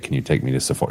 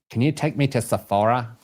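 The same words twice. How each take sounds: First: It is said in the daughter's actual voice. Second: It is said in an exaggerated put-on voice.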